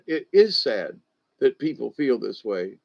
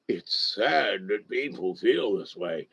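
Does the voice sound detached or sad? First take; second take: detached; sad. First: It is said flatly, without emotion. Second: It is said with sad, emotional feeling. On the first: The fact is stated without being felt. The speaker calls it right. "make the statement, but don't feel the statement" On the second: The speaker takes on the sadness personally. The speaker calls it wrong. "I was even being emotional"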